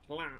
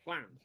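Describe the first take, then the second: First: It starts with a plain voiced L sound. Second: It starts with a breathy, hissing L sound. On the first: The speaker calls it wrong. "you're going to pronounce that lan" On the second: The speaker calls it right. "And it's not, it's flan"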